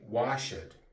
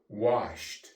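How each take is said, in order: First: The ending is an extra "ed" syllable. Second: The ending is a short t sound. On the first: The speaker calls it wrong. "We do not say washed" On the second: The speaker calls it right. "We say washed"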